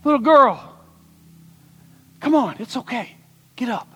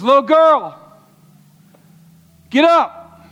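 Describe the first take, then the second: First: High, then softening to a hush; gentle Jesus. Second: High, loud call to rise; commanding Jesus. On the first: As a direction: coax her up tenderly. Jesus coaxes the girl gently. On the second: Jesus calls the dead girl to get up, loud and commanding. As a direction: raise her with a loud command. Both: Acted.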